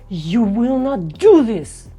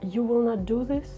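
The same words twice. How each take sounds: First: It sounds angry. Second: It sounds sad. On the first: "Or the anger" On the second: "Let's say it with a sad emotion"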